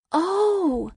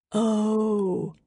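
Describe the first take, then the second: First: High, drawn-out oh; surprised realisation. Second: Sinking-in realisation. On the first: Girl hearing that Peter waited for her, surprised. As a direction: let the surprise lift the pitch right up. Sudden realisation after his confession. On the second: Girl taking in Peter's confession, subdued realisation. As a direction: let it land in your usual pitch. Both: A narrator's reading.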